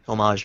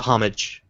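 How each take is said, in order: First: Homage is pronounced with a French-style sound. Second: Homage is pronounced with a plain English sound. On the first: The speaker calls it wrong. "I'm mispronouncing that" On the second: The speaker calls it right. "it's not supposed to be pseudo French"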